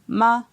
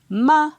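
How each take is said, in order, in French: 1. On la prononce sur un ton moyen. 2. On la prononce sur un ton haut. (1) "Ton moyen" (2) "Ton haut"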